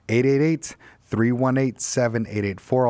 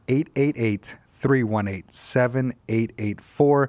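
First: The number is said at a quicker pace. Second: The number is said more slowly.

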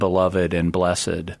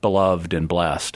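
First: The words are said with their extra syllables. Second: The words are said with fewer syllables. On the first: This is the older way of saying it. "the syllabification that honors the E's" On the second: This is the more modern way of saying it. "the more modern, shorter syllabification"

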